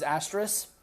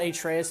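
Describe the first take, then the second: First: The name is said as 'Asteris', with an 's' sound. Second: The name is said as 'Atreus', without an 's' sound. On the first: The speaker calls it right. "it was Asteris" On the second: The speaker calls it wrong. "so it's not Atreus"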